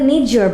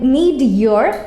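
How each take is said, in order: First: The d and y merge into a j sound. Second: The d and y sounds stay separate. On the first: "বললাম" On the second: "না বলে"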